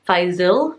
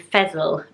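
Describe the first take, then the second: First: The name does not rhyme with vessel. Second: The name rhymes with vessel. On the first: "more like that" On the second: "rhyming with vessel"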